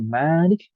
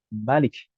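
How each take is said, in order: First: The first vowel is held long. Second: The first vowel is kept short. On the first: "mimnya dibaca panjang Malik" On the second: "dibaca pendek tanpa alif"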